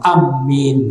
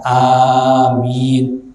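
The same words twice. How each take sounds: First: The vowel after the m is kept short. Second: The vowel after the m is drawn out long. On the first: The speaker calls it wrong. "jangan amin, enggak" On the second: The speaker calls it right. "dengan dibaca takhfif, tidak ditasdid, wa maddin, dan dibaca panjang"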